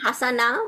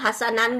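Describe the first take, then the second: First: The word ends on a vowel without n. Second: The word ends with an n sound. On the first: "হাসানা বা হাসানান বললে" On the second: "হাসানান বললে বেটার শুনে"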